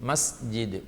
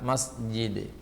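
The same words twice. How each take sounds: Both takes have the same delivery.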